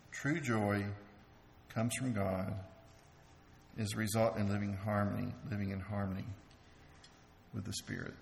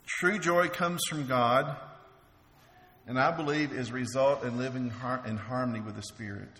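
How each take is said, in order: First: A hushed, lower echo of the earlier line; soft, low repeat. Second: Said in the usual way. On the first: Shown as a demonstration. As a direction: say it again lower and softer, letting it sink in. Repeats the same point more softly.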